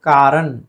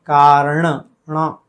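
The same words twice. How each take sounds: First: कारण ending in plain "n"; wrong dental n. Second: कारण with curled-tongue ण; retroflex n. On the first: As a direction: say "kaaran" for कारण. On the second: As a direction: release "ṇa" at the end of कारण. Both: Shown as a demonstration. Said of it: "कारण नहीं".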